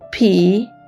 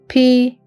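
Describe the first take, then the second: First: The word is said with the dipping third tone. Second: The word is said without the dipping third tone. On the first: It counts cloth. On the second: It counts horses, donkeys or wolves.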